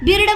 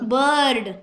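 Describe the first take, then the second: First: The vowel is pronounced like 'ih'. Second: The vowel is pronounced like 'er'. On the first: The speaker calls it wrong. "बिर्ड म्हणलो खरे आपण? नाही म्हटलं" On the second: The speaker calls it right. "अ केला"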